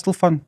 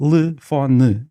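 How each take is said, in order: First: "telefone" squeezed to "t'l'fón", vowels swallowed; rapid reduced form. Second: "Telefone" spelt out slowly, "te-le-fo-ne"; four separate syllables. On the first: Linguist showing everyday speed, swallowed vowels. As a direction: rush "telefone" into nearly one syllable. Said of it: "dizemos-las tão rapidamente". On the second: Linguist showing the supposed four syllables, syllable by syllable. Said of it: "supostamente são quatro sílabas". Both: Shown as a demonstration.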